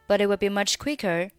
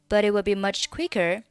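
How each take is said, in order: The two takes are said the same way.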